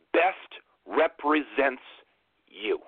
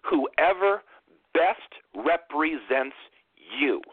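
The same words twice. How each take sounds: First: Slow, each word weighted, BEST stressed; slow emphatic repeat. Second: Drawn out slowly, stressing represents; slow emphatic. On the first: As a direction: lean hard on "Best represents". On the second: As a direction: spell out "best represents" word by word. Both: Shown as a demonstration. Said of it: "I'm gonna say that last part one more time".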